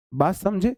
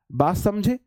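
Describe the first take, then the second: No difference in how they are said.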